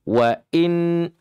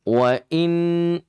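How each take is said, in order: Both takes have the same delivery.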